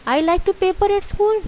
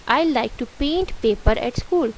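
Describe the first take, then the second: First: High-pitched, questioning echo; incredulous question. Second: Said in the usual way. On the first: Shown as a demonstration. Teacher tests the wrong sentence on pupils, questioning. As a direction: repeat it high, as if it cannot be right.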